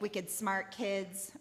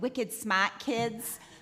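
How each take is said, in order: First: It is said in the speaker's usual accent. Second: It is said in a Boston accent.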